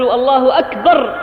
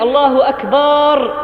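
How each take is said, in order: First: أكبر with a short final a, akbar; short-vowel akbar. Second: أكبر drawn out as akbaar, long second vowel; lengthened akbar. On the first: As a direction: say أكبر with a short fatha, no long alif. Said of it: "بالفتحة وليس بالألف". (أكبر بفتحة قصيرة دون مدّ) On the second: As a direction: stretch the last a of أكبر into a long aa. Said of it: "بمد التكبير". (مدّ باء أكبر: أكبار) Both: Shown as a demonstration.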